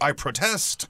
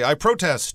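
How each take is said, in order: First: The stress is on the second syllable. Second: The stress is on the first syllable. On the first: The speaker calls it right. "You would say" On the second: The speaker calls it wrong. "you wouldn't say"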